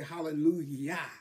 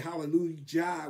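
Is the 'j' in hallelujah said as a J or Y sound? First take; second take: Y sound; J sound. First: The middle consonant is a soft Y sound. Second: The middle consonant is a hard J sound. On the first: The speaker calls it right. "We say hallelujah. Yah" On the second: The speaker calls it wrong. "it's got a J there, but we do not say hallelujah"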